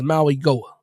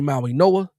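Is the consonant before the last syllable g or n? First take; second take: g; n. First: The last part begins with a g sound. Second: The last part begins with an n sound. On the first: "I think it's" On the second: "I've heard people say"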